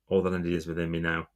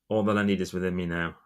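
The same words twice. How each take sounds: Both takes have the same delivery.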